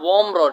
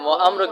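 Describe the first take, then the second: First: It is said joined as one linked word. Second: It is split into two separate parts. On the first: The speaker calls it right. "এক করে ফিডে" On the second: The speaker calls it wrong. "তো ওয়া আমর পড়ো কেন"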